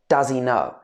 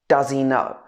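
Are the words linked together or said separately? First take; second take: linked; linked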